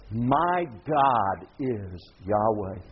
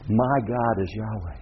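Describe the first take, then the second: First: "My God is Yahweh" drawn out very slowly; slow word-by-word emphasis. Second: Said in the usual way. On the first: Shown as a demonstration. Preacher translating Elijah the prophet's name, slow and emphatic.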